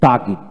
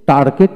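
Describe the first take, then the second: First: তাগিদ as "taa-git", r silent; non-rhotic তাগিদ, "taa-git"; taught pronunciation. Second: টার্গেট with r sounded and "get" at the end; Bangladeshi-style টার্গেট with an audible r; local pronunciation. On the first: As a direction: drop the r in তাগিদ, short i in the last syllable. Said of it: "কিন্তু উচ্চারণ তো হবে". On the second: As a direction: say টার্গেট as "tar-get", r pronounced. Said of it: "টার্গেট উচ্চারণ করা হয়". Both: Shown as a demonstration.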